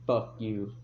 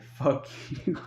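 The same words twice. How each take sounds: First: Said in the usual way. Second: Voiceless, whispered mouthing with a laugh; mouthed words. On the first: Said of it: "like, worded it". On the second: Retold or imitated. Brother mouthing an insult at the watching cops, mouthed. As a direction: imitate silently worded swearing, barely voiced. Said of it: "he didn't say it".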